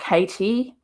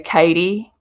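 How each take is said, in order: First: The middle consonant sounds like a crisp t. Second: The middle consonant sounds like a soft d. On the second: "T's are D's, and like I say"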